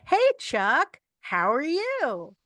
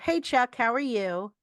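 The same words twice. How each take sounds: First: It is said with the Peanuts characters' inflection. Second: It is said with ordinary, plain inflection.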